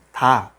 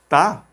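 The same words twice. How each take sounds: First: Said in the usual way. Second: Ta with a harder, tense T and higher pitch; Ta más fuerte. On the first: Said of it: "está escrito como Ta". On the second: Shown as a demonstration. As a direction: hit the T of Ta hard, like a Korean tense consonant. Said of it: "se pronuncia más fuerte como Ta". (Ta con la T más fuerte y tensa)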